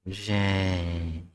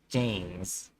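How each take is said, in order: First: The name is said very slowly. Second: The name is said at normal speed.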